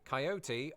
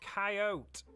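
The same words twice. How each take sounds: First: The word is said with three syllables. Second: The word is said with two syllables. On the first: "pronounce it with three syllables" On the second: "the dismissive two-syllable approach"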